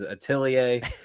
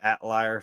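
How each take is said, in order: First: The name is said carefully with every syllable. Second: The name is said in a casual Southern way. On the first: The speaker calls it right. "but it is Atelier" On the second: The speaker calls it wrong. "my southern self has called it Atlier for so long"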